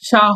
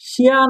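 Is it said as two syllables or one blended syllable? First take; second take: one syllable; two syllables. First: It is said as one blended syllable, sha. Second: It is said as two separate syllables, shi-ya. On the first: The speaker calls it right. "সা হবে" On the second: The speaker calls it wrong. "শিয়া না হয়ে"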